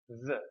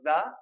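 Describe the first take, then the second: First: The word is said softly with a weak vowel. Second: The word is said with a full, strong vowel. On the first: The speaker calls it right. "if we pronounce it soft, like normal" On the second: The speaker calls it wrong. "it's not the"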